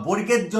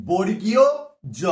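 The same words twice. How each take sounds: First: বর্গের জ said quickly as "borger-jo"; wrong letter name. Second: বর্গীয় জ loud and spaced, "bor-gi-yo", pause, "jo"; correct letter name. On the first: Retold or imitated. Teacher rejecting a wrong name for students, shortened form. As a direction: run বর্গের straight into জ, without "iyo". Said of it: "নয় কিন্তু". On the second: Shown as a demonstration. Teacher giving students the proper name, emphatic and separated. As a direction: sound out বর্গীয় fully, then জ alone. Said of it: "এর নাম হচ্ছে".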